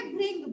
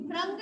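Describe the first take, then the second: First: भृंग with "ri", as "bhring"; correct pronunciation. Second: भृंग with "ra", as "bhrang"; mispronunciation. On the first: Teacher telling pupils how to pronounce it, भृंग said "bhring". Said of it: "इसको pronounce करेंगे". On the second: Teacher showing what we won't say, भृंग said "bhrang". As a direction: put an a after the r in भृंग. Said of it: "भृंग नहीं बोलेंगे". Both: Shown as a demonstration.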